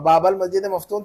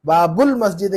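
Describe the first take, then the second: First: Quick बाबल मस्जिद मफ्तूहुन with "bal"; mismatched बाबल before मफ्तूहुन; "a" vowel, wrong here. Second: बाबुल मस्जिद with clear "bul"; singular बाबुल, linked to masjid; "u" vowel ending. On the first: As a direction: say बाबल with a instead of u. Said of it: "थोड़ी कहेंगे वहाँ". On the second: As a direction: put a short u in बाबुल. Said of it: "बाबुल मस्जिद कहेंगे वहाँ". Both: Shown as a demonstration.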